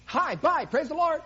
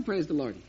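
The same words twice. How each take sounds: First: Quick, high, loud breezy brush-off; hurried churchgoer greeting on the run; rushed greeting. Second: Said in the usual way. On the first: Retold or imitated. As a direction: toss it off in passing, higher and louder.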